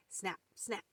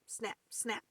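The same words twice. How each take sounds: The two takes are said the same way.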